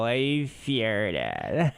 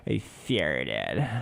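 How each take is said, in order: First: Put-on relaxed valley girl "I farted"; tossed-off valley girl drawl; casual valley girl. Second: Put-on low drawn valley girl "I farted"; lazy valley girl drawl, I as eh; valley girl accent. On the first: Imitating the girl's casual confession, valley girl accent. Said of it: "It was so casual". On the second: Teller imitating the valley girl at Walmart, drawled accent. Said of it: "Valley girl straight up".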